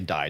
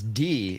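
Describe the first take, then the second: First: The word is said like 'dye'. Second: The word is said like 'dee'. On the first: The speaker calls it wrong. "I'm gonna say die, dude" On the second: The speaker calls it right. "It is D in German"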